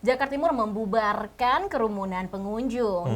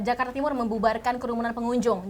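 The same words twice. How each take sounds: First: It is said stretched out and unhurried. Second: It is said short, tight and crisp. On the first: It is delivered as soft news. "soft news dia bisa memanjangkan kalimat" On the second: It is delivered as hard news. "singkat, padat, jelas"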